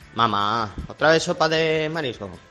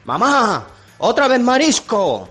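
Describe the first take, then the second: First: It is said at normal, quieter volume. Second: It is said loudly, almost shouted.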